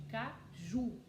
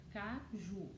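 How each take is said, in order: First: Caju in two beats, weight on the final ju; stress on JU. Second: Said in the usual way. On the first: Shown as a demonstration. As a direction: lean on the ju in Caju. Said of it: "Qual que é a sílaba forte". (Caju com força na sílaba ju) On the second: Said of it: "O que que nós vamos formar".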